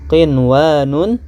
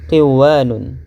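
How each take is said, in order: First: The n before the w is pronounced clearly. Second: The n is merged into the following w. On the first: The speaker calls it right. "harus dibaca qinwanun" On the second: The speaker calls it wrong. "tidak boleh dibaca qiwanun"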